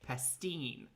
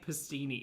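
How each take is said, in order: First: The word ends on a consonant, no final vowel. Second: The word ends with an ee vowel sound. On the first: The speaker calls it right. "no vowel sound at the end" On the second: The speaker calls it wrong. "stop saying pastini"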